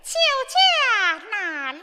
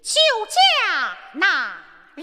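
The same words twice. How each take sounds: First: It is said in a soft, delicate voice. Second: It is said in a rough, gruff voice.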